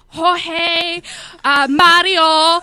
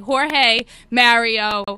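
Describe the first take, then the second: First: The name is said with Spanish pronunciation. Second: The name is said with English pronunciation. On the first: The speaker calls it wrong. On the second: The speaker calls it right. "Why can't you just say"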